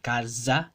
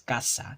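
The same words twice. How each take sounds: First: The middle consonant is a buzzing voiced z. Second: The middle consonant is a hissing voiceless s. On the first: The speaker calls it wrong. "remember that Z doesn't make the Z sound. Casa, no" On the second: The speaker calls it right. "it's casa"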